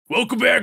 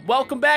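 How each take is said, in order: First: It is said in a deep Batman voice. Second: It is said in a normal voice.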